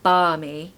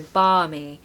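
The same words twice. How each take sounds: The two takes are said the same way.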